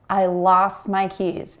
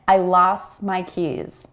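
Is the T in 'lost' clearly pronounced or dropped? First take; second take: dropped; dropped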